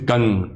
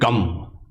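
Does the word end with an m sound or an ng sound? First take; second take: ng sound; m sound. First: The word ends with an ng sound. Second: The word ends with an m sound. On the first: The speaker calls it right. "but actually it's Gang" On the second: The speaker calls it wrong. "People might pronounce it Gam"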